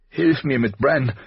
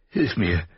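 First: Higher, louder, slow pressing call; urgent cry. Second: Said in the usual way. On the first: A narrator's reading. Caitlin cries out to Robb to help with Bran, urgently. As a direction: demand help now, voice rising. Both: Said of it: "rief sie drängend".

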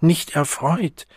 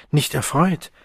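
First: "Nicht" stressed, slower and a touch higher; reproachful. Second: Rising, a touch higher, disbelieving; incredulous question. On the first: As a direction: lean hard on "Nicht", slowly, wounded. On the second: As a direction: echo her words back in disbelief. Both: Acted. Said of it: "Vorwurfsvoll blickte er sie an".

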